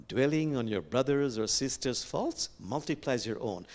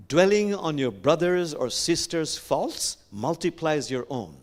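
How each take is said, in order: First: Said in the usual way. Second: Slow, loud, stretched DWELLING; deliberate and raised, leaning on FAULTS; emphatic quote recital. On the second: Acted. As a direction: declaim the saying word by word. First recital of Buddha quote.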